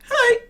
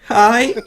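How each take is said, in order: First: It is said in a high, tiny squeak. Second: It is said in a steadier, fuller voice.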